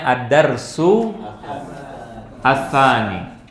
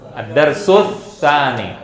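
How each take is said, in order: First: Each word is read separately with its article. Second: The two words are linked into one flow. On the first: "Kalau mau satu-satu bacanya" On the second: "ini bacanya kalau mau nyambung ad-darsus ad-darsus tsani"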